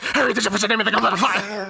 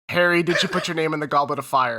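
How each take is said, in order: First: It is asked in a loud, aggressive voice. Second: It is asked in a calm, gentle voice.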